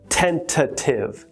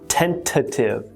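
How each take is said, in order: First: The second T is clearly pronounced in the word. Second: The same.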